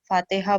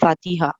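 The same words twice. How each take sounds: First: The vowel after the t is not i. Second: The vowel after the t is i. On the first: The speaker calls it wrong. "Pronunciation में लोग गलती करते हैं" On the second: The speaker calls it right. "ता के नीचे ज़ेर पढ़ना चाहिए"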